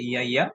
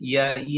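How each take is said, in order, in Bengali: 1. শব্দটি পূর্ণ 'ya' অক্ষর দিয়ে শেষ হয়। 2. শব্দটি সাধারণ 'ee' ধ্বনি দিয়ে শেষ হয়। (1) "এটা উচ্চারণটা হবে ইয়া ইয়া" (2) "এই উচ্চারণটা হচ্ছে ইয়া ই না"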